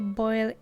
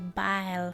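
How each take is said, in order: First: It is said with a standard English vowel. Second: It is said with a Belizean Creole vowel. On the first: "we don't say boil either" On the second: "We say bile"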